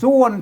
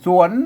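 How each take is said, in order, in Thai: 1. พยางค์นี้ออกเสียงแบบเสียงต่ำ 2. พยางค์นี้ออกเสียงแบบเสียงขึ้น (1) "เสียงเอกนะ" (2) "เสียงจัตวานะ"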